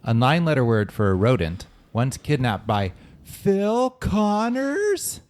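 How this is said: It is read with unusual, marked intonation.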